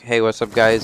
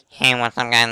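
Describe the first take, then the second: First: The voice sounds normal and natural. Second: The voice sounds distorted, like an alien. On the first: This is how the players really sound. "it would go from them talking like" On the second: The plugged-in mic alters how the players sound. "it sounds kind of like an alien, like an alien voice changer thing"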